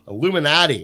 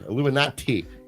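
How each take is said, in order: First: The T sound in the word is left out. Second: The T sound in the word is clearly said. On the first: The speaker calls it wrong. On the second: The speaker calls it right.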